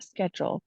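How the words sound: It is said in an American accent. "in here in America I'll say"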